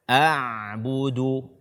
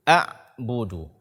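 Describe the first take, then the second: First: The 'ain sound keeps flowing, not fully stopped. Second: The 'ain sound is held and stopped abruptly. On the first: The speaker calls it right. "Tapi suara tetap mengalir sekalipun sudah tidak terlalu jelas" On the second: The speaker calls it wrong. "Tidak boleh kita membacanya a'budu"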